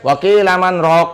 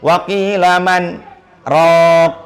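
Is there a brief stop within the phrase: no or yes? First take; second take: no; yes. First: The phrase runs on without a brief stop. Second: The phrase contains a brief stop. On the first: The speaker calls it wrong. "nggak boleh" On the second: The speaker calls it right. "Dia wajib berhenti tuh"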